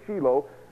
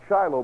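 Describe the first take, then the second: First: The name is said with a Hebrew pronunciation. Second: The name is said with an English pronunciation. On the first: "but in Hebrew it's Shiloh" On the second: "Maybe you pronounce it Shiloh"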